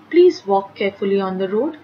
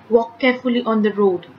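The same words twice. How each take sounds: First: Polite request. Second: Firm command. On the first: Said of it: "It's a request". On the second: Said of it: "It's a command". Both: Shown as a demonstration.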